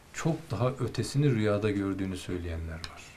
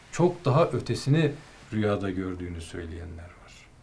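The two takes are said the same way.

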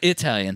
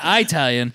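First: The first vowel is a short 'ih' sound. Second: The first vowel is a long 'eye' sound. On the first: The speaker calls it right. "It's a short I" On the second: The speaker calls it wrong. "It's not Italian"

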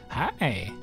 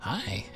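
First: It is said in a lower, normal voice. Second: It is said in a high-pitched voice.

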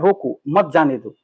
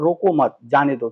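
First: The pause comes right after the word roko. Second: The pause comes right after the word mat. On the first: Stop it, do not let it go. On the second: Do not stop it, let it go.

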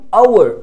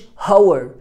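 First: The word starts with a vowel, no h. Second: The word starts with an audible h sound. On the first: The speaker calls it right. "أنا بقول hour" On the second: The speaker calls it wrong. "ما قلتش hour"

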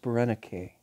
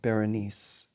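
First: The name is said the Greek way. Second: The name is said the English way. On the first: "it's pronounced Berenike" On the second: "It looks like Berenice in English or French"

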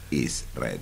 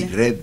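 First: The s sound of 'is' is pronounced. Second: The s sound of 'is' is dropped. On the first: The speaker calls it right. "no, is red" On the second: The speaker calls it wrong. "Los argentinos que se comen las S"

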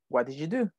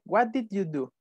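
First: The words are linked into one stream. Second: Each word is said separately. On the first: The speaker calls it right. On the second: The speaker calls it wrong.

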